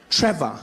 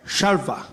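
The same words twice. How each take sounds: First: Said in the usual way. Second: "Shalva" for Trevor, starting on sh; guard mispronouncing Trevor. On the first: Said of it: "my name is Trevor". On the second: Acted. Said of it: "the security guard came out".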